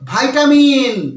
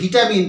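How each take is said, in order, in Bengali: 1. প্রথম অক্ষরটি 'vye' এর মতো উচ্চারিত হয়। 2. প্রথম অক্ষরটি 'vee' এর মতো উচ্চারিত হয়। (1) "এর সঠিক উচ্চারণ কি হবে" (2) "বাট এটা সঠিক উচ্চারণ কিন্তু ভিটামিন নয়"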